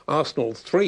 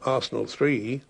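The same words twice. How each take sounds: First: The voice goes up, sounding upbeat. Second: The voice goes down, sounding downbeat. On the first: The team has won. "if you go on the upbeat" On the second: The team has lost. "if it's the downbeat"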